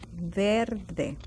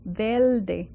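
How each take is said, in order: First: The sound before the d is a clear R. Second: The sound before the d is like an L. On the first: "verde with an R" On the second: "it sounds like an L"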